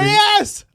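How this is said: The word is screamed loudly. "when you scream"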